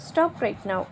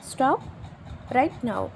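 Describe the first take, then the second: First: Said in the usual way. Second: "Stop", a long pause, then "right now"; separated chunks. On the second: Shown as a demonstration. Teacher modelling an English phrase for learners, pausing after "Stop".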